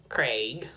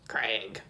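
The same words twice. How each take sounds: First: "Craig" with a long "ay" vowel, rising; attempted British pronunciation. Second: "Craig" with a short flattened vowel, as "Crag"; attempted British pronunciation. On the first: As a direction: say "Craig" low, as in "Crayg". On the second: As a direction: say "Craig" low and falling, like "Crag". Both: Shown as a demonstration. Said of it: "like, a British accent anyway?".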